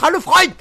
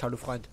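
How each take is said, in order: First: Louder, higher coaxing hello; insistent hello. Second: Much softer, lower grumble; sulky mutter. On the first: Coaxing the character to greet him back, insistently. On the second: Sulking at the silent character, muttered softly. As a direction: mumble it like a hurt kid. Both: Pretend.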